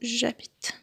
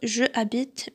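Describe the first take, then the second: First: The vowel of je is dropped before the verb. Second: The vowel of je is kept before the verb. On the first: The speaker calls it right. "mais plutôt j'habite" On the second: The speaker calls it wrong. "on va pas dire je habite"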